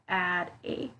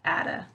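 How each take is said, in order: First: The two words are said separately. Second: The two words are linked together.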